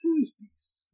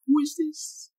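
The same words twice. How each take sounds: First: High quiet mock Italian accent; lightly hammed Italian accent. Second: High put-on Asian woman voice; squeaky caricature Asian woman. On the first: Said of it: "Italian accent". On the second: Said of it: "I did an Asian woman".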